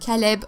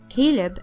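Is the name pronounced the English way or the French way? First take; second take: French; English. First: The name is pronounced the French way. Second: The name is pronounced the English way. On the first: "this is the French way to pronounce this name" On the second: "everyone is pronouncing this this name this way"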